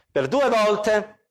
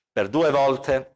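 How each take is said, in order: First: "due" slow and raised, "Per due volte" drawn out; slow, lifted stress on "due"; emphatic first take. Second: "per due volte" repeated lower and slow; low, deliberate repeat of "due"; lower echo. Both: Real, not acted.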